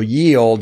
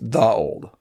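First: The first word starts with a 'y' sound. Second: The first word starts with a 'th' sound. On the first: The speaker calls it wrong. "the Y is pronounced as T-H" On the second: The speaker calls it right. "ye old is just the old"

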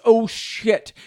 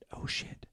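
First: It is spoken in a normal voice. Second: It is spoken in a whisper.

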